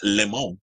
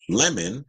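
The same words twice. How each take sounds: First: The name is said with a French accent. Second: The name is said in a plain American way.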